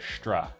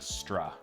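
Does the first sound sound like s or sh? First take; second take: sh; s. First: The s sounds like sh before tr. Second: The s sounds like a plain s. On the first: "you end up with a stra" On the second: "instead of a stra"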